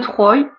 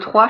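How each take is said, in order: First: The name does not sound like the number three. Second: The name sounds like the number three. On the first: The speaker calls it wrong. "Je sais pas comment on prononce" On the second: The speaker calls it right. "il vaut mieux prononcer Troie"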